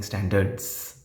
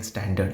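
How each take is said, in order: First: "standards" with a stretched z on the end; slow "standards", its final S clearly sounded; final S stressed. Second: "standard" stopping on the d, no S; S dropped. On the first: Teacher contrasting the right word, S stressed. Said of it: "I'm saying standards". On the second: Teacher contrasting the wrong word, ending left off. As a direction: say "standard" bare, without the final S. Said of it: "I'm not saying standard". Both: Shown as a demonstration.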